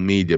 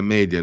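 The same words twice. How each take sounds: First: It is said the English way, like 'mee-dia'. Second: It is said the Latin way, like 'meh-dia'. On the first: It treats the word as English. The speaker calls it wrong. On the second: It respects the word's Latin origin. The speaker calls it right. "si deve dire media"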